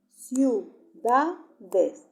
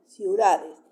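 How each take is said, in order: First: "ciudades" loud, as ciu... da... des; split into syllables. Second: Said in the usual way. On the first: Shown as a demonstration. Teacher repeating for the class, "ciudades" in separated syllables. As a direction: pause after each syllable of "ciudades". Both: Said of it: "lo separo en sílaba".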